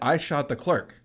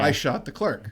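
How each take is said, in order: First: The voice rises at the end like a question. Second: The voice falls at the end like a statement.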